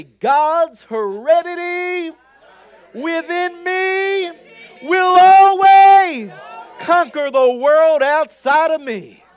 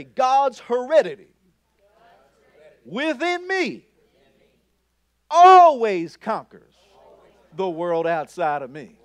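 First: Slow, much higher and louder, shouting each phrase; shouted declaration. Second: Raised, firm confession, each phrase set apart; bold declaration. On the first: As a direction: roar it out like you truly mean it. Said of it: "you gotta say it like you mean it". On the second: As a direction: proclaim it clearly but not yet at full force. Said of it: "So say this with me". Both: Shown as a demonstration.

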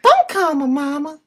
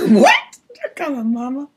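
First: Higher and louder, insistent; louder high put-on voice. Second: High put-on voice. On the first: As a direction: push it up and louder. Repeated louder.

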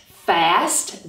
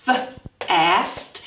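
First: Said in the usual way. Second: F-ast with the f held apart; sounded out. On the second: Shown as a demonstration. Teacher sounding out f-ast for children. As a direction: hold the f, then ast. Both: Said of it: "we have the f sound".

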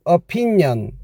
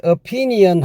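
First: "opinion" smooth and linked, o-pin-yon; the natural "opinion" to copy; right pronunciation. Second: "opinion" with every letter spelled out, o-pi-ni-on; the stiff spelled-out "opinion" to avoid; wrong pronunciation. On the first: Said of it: "하지 마시고 opinion". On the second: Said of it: "opinion 하지 마시고". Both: Shown as a demonstration.

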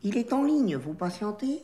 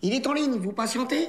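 First: Put-on restrained refined Paris accent; corrected chic accent. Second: Working-class Parisian receptionist line; slipping Parigot accent. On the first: Trainee redoing the hold line, careful chic accent. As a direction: rein the Parigot in, aim for chic. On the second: Acted. Trainee practising the hold line for the boss, Parigot accent. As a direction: let the Parigot twang slip into it. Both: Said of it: "L'accent, l'accent".

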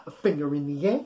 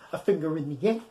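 No difference in how they are said.

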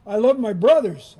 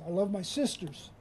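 First: Louder, with "love" punched and falling; emphatic declaration. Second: Much softer, "love" gently stressed and falling; soft, hushed echo. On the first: Preacher declaring to the congregation, loud and emphatic. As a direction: proclaim "love" out loud to the crowd. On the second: Preacher echoing the line to the congregation, softly hushed. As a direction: drop to a near hush on "love". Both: Shown as a demonstration. Contrasting lines about loving siblings.

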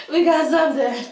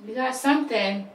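First: Higher, louder, thrilled; excited. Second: Said in the usual way. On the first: Real, not acted. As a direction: cheer that it finally caught. Fire finally catches.

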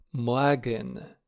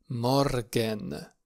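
First: "Morgen" as MOA-gen, no consonant r; vowel-like R variant. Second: "Morgen" as MOR-gen, r clearly pronounced; sounded R variant. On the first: Teacher contrasts two correct variants for learners, vowel-like R variant. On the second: Teacher contrasts two correct variants for learners, sounded R variant. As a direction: articulate the r in "Morgen". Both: Shown as a demonstration. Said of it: "Amândouă variante sunt corecte".

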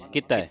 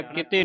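First: ਕਿਤੈ ending in an open "eh". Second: ਕਿਤੇ ending in a close "ay"; the misreading ਕਿਤੇ, with a narrow final e; closed e ending. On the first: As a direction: say ਕਿਤੈ as ki-tai, vowel open. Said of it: "ਇੱਥੇ ਤੱਤੇ ਨੂੰ ਦੁਲਾਵਾਂ ਲੱਗੀਆਂ". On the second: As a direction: say ਕਿਤੇ as ki-tay. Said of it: "ਕਿਤੇ ਨਹੀਂ ਪੜ੍ਹਨਾ". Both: Shown as a demonstration.

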